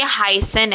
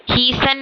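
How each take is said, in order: First: हाइसन said with ai, slowly and clearly; correct pronunciation. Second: हीसन said with ee, the wrong way; wrong pronunciation shown. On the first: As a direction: stretch हाइसन with a clear ai sound. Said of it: "ये हाइसन है". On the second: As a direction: say हीसन as a mistake to avoid. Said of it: "हीसन नहीं है". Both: Shown as a demonstration.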